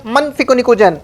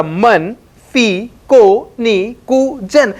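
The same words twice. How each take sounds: First: Said in the usual way. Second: "मन फी को नी कु जन" spaced out very slowly, each syllable apart. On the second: Shown as a demonstration. Teacher slowly breaks the phrase apart for students. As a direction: spell out the mnemonic slowly. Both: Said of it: "उसने क्या बोला?".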